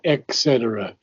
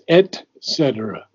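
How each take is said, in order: First: The first syllable has a k sound: 'ek'. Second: The first syllable has a t sound: 'et'. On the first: The speaker calls it wrong. "It is not et cetera. ... It's not X" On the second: The speaker calls it right. "It's et cetera. ... It's et"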